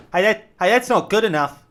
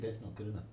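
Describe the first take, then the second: First: Loud, high shouted call; yelling up. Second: Quiet relay. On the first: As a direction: shout it up to him. Yelled up to the guy. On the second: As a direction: pass it on quietly. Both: Retold or imitated.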